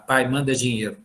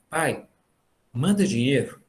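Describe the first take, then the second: First: It sounds rude and demanding. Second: It sounds gentle and pleading.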